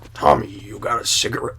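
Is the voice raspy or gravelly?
gravelly. The voice strains for a deep gravelly rumble. The speaker calls it wrong. "but I couldn't be like"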